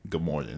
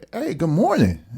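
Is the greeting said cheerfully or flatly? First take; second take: flatly; cheerfully. First: It is said in a flat, dull tone. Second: It is said in a warm, cheerful tone.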